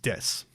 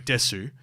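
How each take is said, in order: First: The final u is silent. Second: The final u is clearly pronounced. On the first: The speaker calls it right. "The U silent. So it's Des" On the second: The speaker calls it wrong. "you go Desu, which is not correct"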